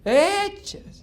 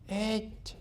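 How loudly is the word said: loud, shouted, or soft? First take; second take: loud; soft. First: The word is said with raised volume. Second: The word is said softly and gently. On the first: "aumentaba el volumen" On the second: "y suavito"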